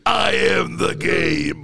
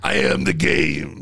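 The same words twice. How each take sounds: First: Very slow, booming pronouncement; grandiose declaration. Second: Grandiose declaration. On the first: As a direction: boom it out, mock-epic. Repeats boast after laughter. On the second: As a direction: declare it like a legend. Boastful comeback, friend laughs. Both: Real, not acted.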